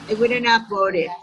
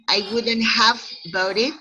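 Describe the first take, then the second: First: The words are reduced and run together lightly. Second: Each word is said fully and clearly. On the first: "in a very light way" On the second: "instead of saying"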